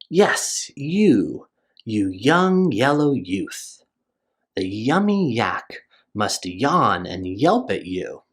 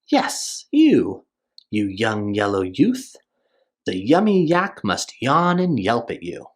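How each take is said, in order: First: It is read at a slower pace. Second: It is read at a faster pace.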